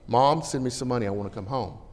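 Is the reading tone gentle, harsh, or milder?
milder. The letter is read in a somewhat softer tone. The son sounds less demanding. "his tone's a little bit better"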